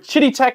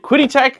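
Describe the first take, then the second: First: The name begins with a ch sound. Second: The name begins with a k sound. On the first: The speaker calls it right. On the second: The speaker calls it wrong.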